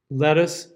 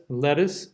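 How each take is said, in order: First: "Lettuce" with a full uh in the last syllable, /lɛtʌs/; "Lettuce" read out as a diction demo, last vowel uh; first lettuce variant. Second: "lettuce" with a relaxed schwa in the last syllable, /lɛtəs/; "lettuce" read out as a diction demo, last vowel schwa; second lettuce variant. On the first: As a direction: say "Lettuce" ending in a clear uh vowel. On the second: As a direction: say "lettuce" ending in a neutral schwa. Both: Shown as a demonstration. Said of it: "two different sounds that would be acceptable".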